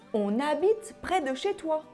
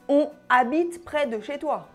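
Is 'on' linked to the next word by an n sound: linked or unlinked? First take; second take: linked; unlinked. First: An n sound links 'on' to 'habite'. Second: No n sound links 'on' to 'habite'. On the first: The speaker calls it right. "ne pas oublier la liaison" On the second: The speaker calls it wrong. "On ne dit pas"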